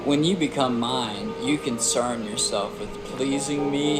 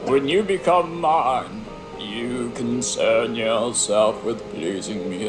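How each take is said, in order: First: It is read in the speaker's ordinary voice. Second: It is read in a put-on gruff barbarian voice. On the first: The speaker calls it wrong. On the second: The speaker calls it right.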